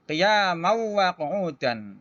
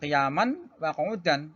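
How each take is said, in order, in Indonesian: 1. Bunyi n menyatu menjadi w yang dobel. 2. Bunyi n diucapkan dengan jelas sebelum w. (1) "Maka cara membacanya adalah qiyamau wa qu'udan. Ini dimasukkan kepada huruf yang kedua itu wawu"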